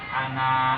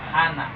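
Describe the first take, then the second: First: The final vowel is held long. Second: The final vowel is kept short. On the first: The speaker calls it wrong. "bukan ana" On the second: The speaker calls it right. "tapi ana ... Pendek ya"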